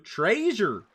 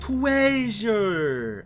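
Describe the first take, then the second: First: Lightly voiced Fred exclaiming; Fred impression. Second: A hint of Fred's excited call; Fred from Scooby-Doo. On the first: Streamer trying Fred's line again, mild exclamation. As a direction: call it out like Fred. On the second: Streamer imitating Fred to chat, mild excited call. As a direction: proclaim it like Fred finding loot. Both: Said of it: "How does Fred say it in Scooby-Doo?".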